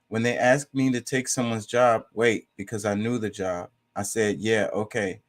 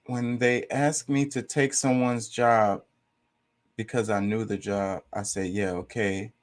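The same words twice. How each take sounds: First: Said in the usual way. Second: Slow, deliberate, drawn-out reread; slow mocking reread. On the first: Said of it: "It says". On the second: Shown as a demonstration. Rereading the confusing comment, slow and deliberate. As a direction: spell it out slowly, word by word, in disbelief. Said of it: "he says".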